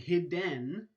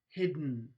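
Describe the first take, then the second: First: A short vowel is heard between d and n. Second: The d releases straight into the n sound. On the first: The speaker calls it wrong. "You're not saying hidden. Again, you're not producing a vowel" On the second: The speaker calls it right. "you're actually releasing the stop straight into your nasal cavity"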